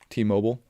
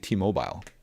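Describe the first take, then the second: First: Mobile is said with an American pronunciation. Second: Mobile is said with a Canadian pronunciation. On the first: "how us Americans would say T-Mobile" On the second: "and they say T-Mobile"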